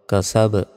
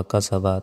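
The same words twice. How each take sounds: First: "কা সা ব" with the final b vowelless and bounced; stopped qalqala ending. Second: Said in the usual way. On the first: Shown as a demonstration. Teacher shows the stop, "ব" released as a bounced b. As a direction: stop on "ব" with a slight echoing push. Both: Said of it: "থামলে".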